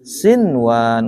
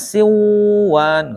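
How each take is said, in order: First: The n is pronounced clearly before the w. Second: The n merges into the following w sound. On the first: The speaker calls it right. "Bacanya gimana?" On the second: The speaker calls it wrong. "Gak boleh siwan"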